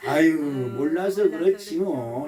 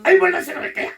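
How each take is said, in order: First: Slow, low "아유" easing into acceptance; drawn-out, understanding sigh; forgiving intonation. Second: High, sharp, exasperated burst; testy and high-pitched, demonstrating the wrong tone; irritated intonation. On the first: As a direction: say it as if gently excusing someone. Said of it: "이 말의 억양이 참 중요해". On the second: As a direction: say the excuse as if annoyed. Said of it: "이러면 또 신경질 나는 거니까". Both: Shown as a demonstration.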